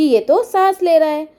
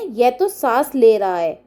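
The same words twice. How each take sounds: First: "ये तो सांस ले रहा है" said louder and higher; raised voice. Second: Said in the usual way. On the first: Acted. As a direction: call it out in a raised voice. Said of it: "फिर उसने बोला ऊंचे स्वर में". (ऊंचे स्वर में बोलना) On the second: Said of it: "ऊंचे स्वर में".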